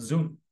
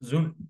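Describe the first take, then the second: The two takes are said the same way.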